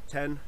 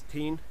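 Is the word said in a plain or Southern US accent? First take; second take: plain; Southern. First: The word is said without a Southern accent. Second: The word is said in a Southern accent.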